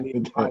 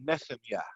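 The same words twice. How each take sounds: First: It has a plain 'h' sound in the middle. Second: It has a throaty 'ch' sound in the middle. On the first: This is the English way of saying it. The speaker calls it wrong. "It's not how you say Nehemiah" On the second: This is the original Hebrew way of saying it. The speaker calls it right. "in the Hebrew is uh, Nehemiah"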